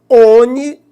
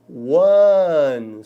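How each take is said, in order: First: The word begins with an O vowel, no W. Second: The word begins with a W sound. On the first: The speaker calls it wrong. "Não é ONI" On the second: The speaker calls it right. "a pronúncia é one"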